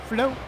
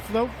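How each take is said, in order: Both takes have the same delivery.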